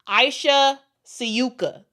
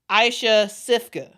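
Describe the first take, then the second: First: The surname is said without an f sound. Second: The surname is said with an f sound. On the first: The speaker calls it right. "the way it's it seems like it's pronounced to me" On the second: The speaker calls it wrong. "a lot of people are saying um, Aisha Sifka because it looks like Sifka"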